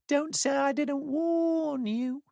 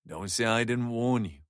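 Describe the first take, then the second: First: It is said in a silly high-pitched whine. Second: It is said in a normal voice. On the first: It mocks the person who said it. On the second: It is a sincere warning.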